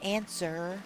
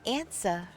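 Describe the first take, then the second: First: The final R sound is clearly pronounced. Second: The final R sound is dropped. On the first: The speaker calls it wrong. "that feels wrong. I don't like saying it like that" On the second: The speaker calls it right. "It's answer"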